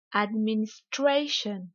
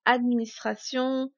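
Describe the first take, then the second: First: "administration" slow in English, STRAY drawn out; slow teacher's "administration", peak on STRAY; exaggerated English stress. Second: Said in the usual way. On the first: Shown as a demonstration. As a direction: lean hard on STRAY in "administration", light "shun". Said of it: "je vais délibérément exagérer". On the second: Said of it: "uniquement prononcés en français".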